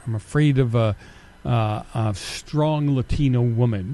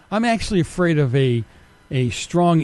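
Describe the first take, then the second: First: Lower, slow, mock-earnest parody of the accuser; mocking quote. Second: Said in the usual way. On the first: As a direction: mimic the critic with a sneer. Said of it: "somebody accused me of".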